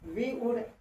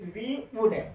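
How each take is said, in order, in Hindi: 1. यह दो अलग-अलग पूरे शब्दों के रूप में बोला जाता है। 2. यह दो अलग-अलग पूरे शब्दों के रूप में बोला जाता है।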